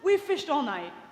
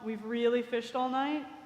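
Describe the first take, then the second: First: It sounds irritated and impatient. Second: It sounds humble and deferential.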